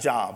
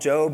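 First: It sounds like the word for work. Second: It does not sound like the work word. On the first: It means employment. The speaker calls it wrong. "not Job, okay? Some people need to get one" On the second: It is the biblical man's name. The speaker calls it right. "we call him Job"

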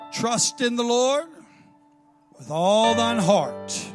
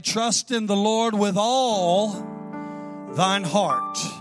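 First: The word all gets no special stress. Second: The word all is strongly stressed.

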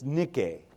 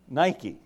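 First: It is said with a Greek pronunciation. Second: It is said with an English pronunciation. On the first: "is how it's actually pronounced in the Greek" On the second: "You just say it differently. You say Nike"

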